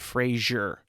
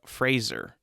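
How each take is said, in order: First: The name sounds like 'Frasier', with a zh sound. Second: The name rhymes with 'razor', with a z sound. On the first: The speaker calls it wrong. "It's not Brendan Fraser" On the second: The speaker calls it right. "like razor but Fraser"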